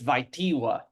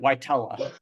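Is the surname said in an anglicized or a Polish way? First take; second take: Polish; anglicized. First: The surname is said with Polish pronunciation. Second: The surname is said with anglicized pronunciation. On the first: This is the original form of the name. The speaker calls it right. "Technically, I'm told it's Vaitiwa" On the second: This is the family's adapted form of the name. The speaker calls it wrong. "I pronounce it, uh, call it the the the not correct way"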